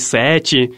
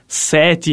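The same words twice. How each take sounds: First: It is said in the usual, non-local pronunciation. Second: It is said in the local town pronunciation. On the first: This is how people elsewhere say it. "em vez de 7" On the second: This is how people in the town say it. "nós somos de uma cidade onde a gente fala 7"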